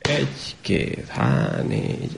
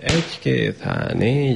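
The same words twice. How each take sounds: First: The numbers are counted at twice the first pace. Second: The numbers are counted at three times the first pace. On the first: Two numbers are said per hand beat. "dupla tempóban mondani a számokat a kezünkhöz képest" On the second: Three numbers are said per hand beat. "háromszor olyan gyorsan mondanánk a számokat"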